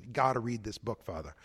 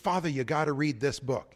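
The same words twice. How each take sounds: First: Put-on a light Boston accent, gotta read this book, Father; a hint of a Boston accent, softer and lower. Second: Said in the usual way. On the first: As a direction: do a parishioner from Boston, dropping the r in Father. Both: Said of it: "if I can do the Boston accent".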